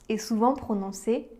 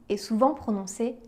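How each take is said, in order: Both takes have the same delivery.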